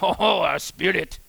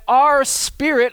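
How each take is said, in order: First: It is said in a put-on French accent. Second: It is said in his plain own accent.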